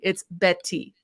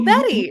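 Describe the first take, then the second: First: The T sounds are crisp and clearly pronounced. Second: The T sounds are soft, like a quick D. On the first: The speaker calls it right. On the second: The speaker calls it wrong.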